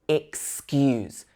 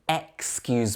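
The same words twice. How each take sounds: First: The first syllable is a reduced 'ih' sound. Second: The first syllable is a full 'eks' sound. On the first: The speaker calls it right. "mostly we would say excuse. So it starts with it" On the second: The speaker calls it wrong. "it looks like it should be excuse me"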